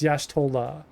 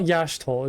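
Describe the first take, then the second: First: The name ends with a final vowel. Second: The name ends without a final vowel. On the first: The speaker calls it right. "it's Yashtola" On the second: The speaker calls it wrong. "I was pronouncing it wrong. It's not Yashtol"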